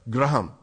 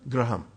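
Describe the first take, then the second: First: It is said in an Indian accent. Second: The same.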